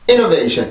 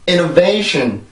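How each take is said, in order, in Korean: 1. 강세는 처음에만 오고 그다음엔 평평하게 떨어져요. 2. 1차 강세와 2차 강세가 리듬을 만들어 줘요. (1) "강세만 처음에 주고 쭉 떨어뜨리는" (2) "강세가 여기가 있고 여기에는 이 차 강세가 있어요"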